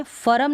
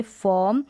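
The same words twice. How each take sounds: First: "फर्म" as "fa-ram", two syllables; full-r mispronunciation. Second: "फॉर्म" as "fuhm", one syllable; half-r pronunciation. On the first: Teacher warning learners off it, "फर्म" with full r. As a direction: fully sound the r in "फर्म". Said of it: "फर्म नहीं पढ़ेंगे". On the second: Teacher modelling the correct reading, "फॉर्म" with half r. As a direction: drop most of the r in "फॉर्म". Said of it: "इसको पढ़ेंगे फॉर्म". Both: Shown as a demonstration.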